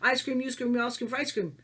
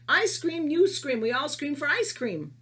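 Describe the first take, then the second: First: It is said quickly, at a faster pace. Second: It is said at a normal, unhurried pace. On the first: "if you say it faster" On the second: "That's a simple one"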